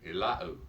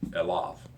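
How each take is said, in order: First: The word ends in an oo vowel. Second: The word ends in a v consonant. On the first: The speaker calls it wrong. "it's not Elau at all" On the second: The speaker calls it right. "you pronounce it with the V"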